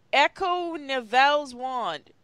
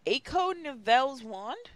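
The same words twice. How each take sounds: First: "Echo" with a short first vowel, as a statement; declared spell. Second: "Echo" as "AY-ko", rising to a question; questioning retake. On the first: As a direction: proclaim "Echo" like a command. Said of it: "cried Voldemort". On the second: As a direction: try "Echo" again, unsure, ending upward. Second try at misspelt spell. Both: A narrator's reading.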